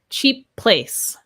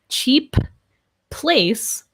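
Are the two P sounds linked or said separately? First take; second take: linked; separately. First: The two P sounds are linked together. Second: Both P sounds are said separately. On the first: The speaker calls it right. "It just blends, links to that next P consonant" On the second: The speaker calls it wrong. "I would not say"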